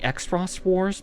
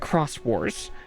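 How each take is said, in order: First: The name begins with an 'eks' sound. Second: The name begins with a 'k' sound. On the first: The speaker calls it wrong. "we might call it" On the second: The speaker calls it right. "it's supposed to be pronounced"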